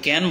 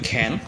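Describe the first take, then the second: First: The first consonant is a plain unaspirated k. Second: The first consonant is an aspirated kh. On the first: The speaker calls it wrong. "আমরা বাঙালি, বাংলাদেশ এবং ভারতীয়রা আহ, কিন্তু ক্যান বলে থাকি" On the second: The speaker calls it right. "এটার যে সঠিক উচ্চারণ সেটা অবশ্যই হবে খ্যান"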